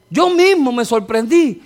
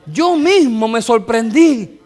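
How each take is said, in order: First: Loud repeat. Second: Slow emphasis. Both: Shown as a demonstration.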